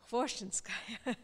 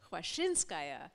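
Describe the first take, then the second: First: The stress falls on the first syllable. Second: The stress falls on a later syllable. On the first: The speaker calls it right. "the correct pronunciation is with the accent on the first syllable" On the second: The speaker calls it wrong. "I have for 25 years been calling her Khvoshchinskaya"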